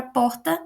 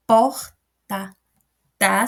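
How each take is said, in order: First: Said in the usual way. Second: "porta" broken up, a loud POR, then a separate "ta"; syllable-by-syllable stress. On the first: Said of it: "Sai mais baixo". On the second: Shown as a demonstration. Teacher contrasts strong and weak syllables, "porta" split after "por". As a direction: punch "por" in "porta", pause, give "ta" by itself. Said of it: "Sai mais baixo, ele sai com menos força".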